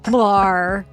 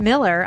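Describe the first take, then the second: First: The final syllable is a full 'ar' sound. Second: The final syllable is a weak 'er' sound. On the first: The name is spelled with an A, not an E. "the way I would pronounce it to to signal how it was spelled" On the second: This is the usual way the name is said. "I'm not saying it's not Miller"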